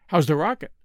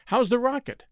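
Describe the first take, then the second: First: Lightly voiced older woman's echo; a hint of a chirping mother-in-law; piping mother-in-law. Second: High, lilting wifely question; lifted, eager inquiry. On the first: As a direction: echo the question, rising at the end. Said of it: "piped mother-in-law". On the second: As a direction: ask brightly in a higher voice, falling at the end. Wife eagerly greets husband, narrated. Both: A narrator's reading.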